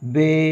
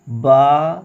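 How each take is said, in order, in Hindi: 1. अक्षर का नाम उर्दू लहजे में बोला गया है। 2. अक्षर का नाम अरबी लहजे में बोला गया है। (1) "उर्दू तलफ़ुज़ से परहेज़ करें" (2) "अरबी लहजे में अदा करें"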